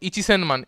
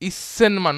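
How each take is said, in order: First: The word begins with a full ichi-sen. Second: The word begins with a short, clipped is-sen. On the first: The speaker calls it wrong. "Not ইচিসেনমান" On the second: The speaker calls it right. "ইসেনমান নট ইচিসেনমান"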